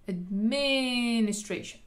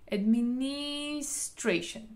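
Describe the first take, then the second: First: The stress is on the second syllable. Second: The stress is on the third syllable. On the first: "אם אני רוצה להדגיש את העברה השנייה" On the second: "אם אני עושה על העברה השלישית"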